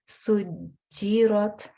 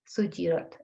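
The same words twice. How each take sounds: First: The j sound is pressed and held doubled. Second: The j sound is short and said quickly. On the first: The speaker calls it right. "I am pressing on the j sound" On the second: The speaker calls it wrong. "I'm not reading it quickly like sujirat"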